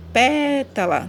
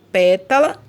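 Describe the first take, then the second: First: Pétala with PÉ drawn out and higher; stress on PÉ. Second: Said in the usual way. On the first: Shown as a demonstration. Teacher showing pupils the strongest syllable, PÉ held long in pétala. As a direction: stretch the first syllable, PÉ, in pétala. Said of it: "que é, é a mais forte".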